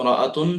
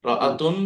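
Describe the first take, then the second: The two takes are said the same way.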